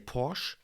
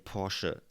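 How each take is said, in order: First: The name is said the American way. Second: The name is said the German way. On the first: The speaker calls it wrong. "In America, can many people would say Porsche" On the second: The speaker calls it right. "but in Germany, and it's German, so please say Porsche"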